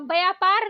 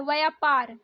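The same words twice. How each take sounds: First: व्यापार starting with b; hard b opening व्यापार; wrong pronunciation. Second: व्यापार starting with v; correct pronunciation. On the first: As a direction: say व्यापार as "bayapar". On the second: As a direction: say व्यापार as "vayapar". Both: Shown as a demonstration. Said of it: "व्यापार नहीं होता है".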